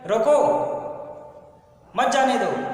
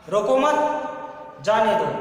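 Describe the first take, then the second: First: There is a pause right after रोको. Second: There is a pause right after मत.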